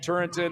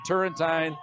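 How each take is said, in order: First: The last syllable is a short 'tin'. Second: The last syllable is a long 'teen'. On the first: This is how the speaker has always said it. "I've always called him Turrentin" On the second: This is how others have been heard saying it. "Now I've heard Turrentine"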